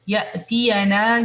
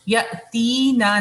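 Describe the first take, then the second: First: The ya sound is voiced with a short a. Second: The ya sound is dropped with no vowel. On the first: The speaker calls it right. "यहाँ पे फतह है" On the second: The speaker calls it wrong. "साकिन नहीं अदा करना यहाँ पे, यअतीना नहीं है"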